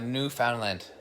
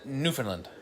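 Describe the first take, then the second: First: Each part of the name is said as spelled. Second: The name is said the local Canadian way. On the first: "That's literally the province name" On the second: "we pronounce it in Canada"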